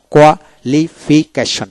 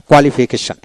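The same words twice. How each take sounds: First: Slow, split "qualification" into koa-li-fi-keshon; syllable by syllable. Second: Said in the usual way. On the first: Shown as a demonstration. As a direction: break "qualification" apart for a learner. Teacher splits word into syllables.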